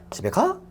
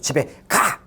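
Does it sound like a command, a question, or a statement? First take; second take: question; command. First: The pitch rises at the end like asking. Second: It ends with a sharp, forceful commanding tone. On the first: The speaker asks whether someone goes home. "이거는 의문" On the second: The listener is ordered to go home. "이건 명령"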